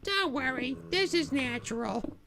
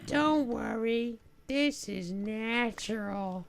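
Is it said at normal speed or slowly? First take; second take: normal speed; slowly. First: It is said at a normal speed. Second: It is said a little more slowly.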